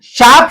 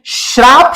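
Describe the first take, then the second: First: शाप said as plain shaap with no r; शाप pronounced shaap without the r; correct pronunciation. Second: श्राप said with a clear shr cluster at the start; श्राप pronounced shraap with the r sounded; wrong pronunciation. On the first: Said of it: "शाप शब्द होता है". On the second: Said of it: "actual में इसका उच्चारण गलत है". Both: Shown as a demonstration.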